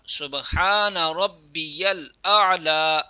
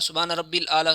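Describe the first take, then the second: First: A y sound follows rabbi. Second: No y sound follows rabbi. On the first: The speaker calls it right. "ये दुरुस्त तलफ़ुज़ है" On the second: The speaker calls it wrong. "कुछ लोग ऐसे करते हैं ... ये भी गलत है"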